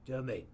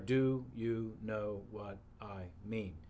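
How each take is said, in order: First: The six words are squashed into two syllables. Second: All six words are said clearly and separately. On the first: "So he turns 6 words into 2 syllables" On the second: "The 6 words are"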